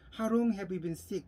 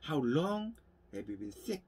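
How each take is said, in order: First: Every word gets roughly equal, full stress. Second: Only 'how long' and 'sick' are strongly stressed. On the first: The speaker calls it wrong. "How long have you been sick이라고 하는 것보다는" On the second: The speaker calls it right. "How long과 sick이 강세를 받고요. Have you been은 약하게 읽는다는 거죠"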